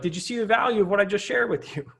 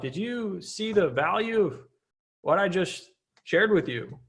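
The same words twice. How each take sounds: First: The question is asked in a happy, upbeat tone. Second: The question is asked in an unhappy, flat tone. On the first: It invites the listener to agree. The speaker calls it right. "But it's a happy yes" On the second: It does not invite the listener to agree. The speaker calls it wrong. "It's not like"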